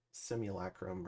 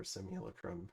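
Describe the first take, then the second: First: Simulacrum with a full "lack" as third syllable; alternative pronunciation. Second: Simulacrum with a reduced third syllable; alternative pronunciation. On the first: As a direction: say Simulacrum as sim-yuh-LACK-rum. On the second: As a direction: say Simulacrum as SIM-yuh-luh-krum. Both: Shown as a demonstration. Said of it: "however you wanna say it".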